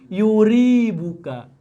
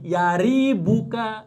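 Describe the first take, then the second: First: The first vowel is u. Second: The first vowel is a. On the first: This is the reading most common in Arabic usage. "ini boleh yuribuka" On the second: This is the reading most common in hadith tradition. "Kalau tadi yaribuka"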